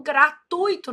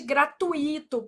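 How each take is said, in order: First: "gratuito" as three syllables, gra-TUI-to; correct stress. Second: "gratuito" with a separate stressed I; wrong stress. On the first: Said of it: "o certo é gratuito". ("gratuito" com a tônica no U) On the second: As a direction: say "gratuito" as gra-tu-Í-to. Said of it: "não existe gratuito". ("gratuito" errado, com a tônica no I) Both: Shown as a demonstration.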